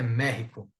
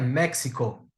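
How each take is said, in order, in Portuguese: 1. A consoante do meio é um som gutural, rascante. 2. A consoante do meio não é um som gutural. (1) "mas é México" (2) "Não é México"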